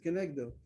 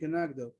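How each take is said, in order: First: The vowel after the n sounds like 'eh'. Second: The vowel after the n sounds like 'ah'. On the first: This is the accepted reading. "but we read it kenegdo" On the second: This is the text read without vowel marks. "if you read the text without any vowel, you read kenagdo"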